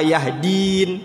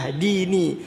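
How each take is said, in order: First: The word ends on the consonant n. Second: The word ends with a short i vowel. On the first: This is the form as read in the recitation. "fa huwa yahdin" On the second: This is the underlying full form. "kan sebenarnya yahdini"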